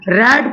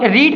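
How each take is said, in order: First: The vowel is short, like 'red'. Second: The vowel is long, like 'reed'. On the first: It is the past participle of the verb. "थर्ड form में हम इसे क्या पढ़ते हैं, रेड पढ़ते हैं" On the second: It is the present form of the verb. "रीड का जो होता है फर्स्ट फॉर्म"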